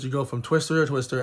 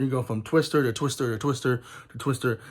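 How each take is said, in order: First: Said in the usual way. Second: Each "Twister" punched in turn; emphasis on twister. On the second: Shown as a demonstration. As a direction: lean on every "Twister" in the chain. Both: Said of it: "Emphasis on the word twisters".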